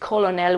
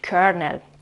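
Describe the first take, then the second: First: The word is said with an L sound. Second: The word is said with an R sound. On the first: The speaker calls it wrong. "we don't pronounce it colonel" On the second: The speaker calls it right. "we pronounce it kernel"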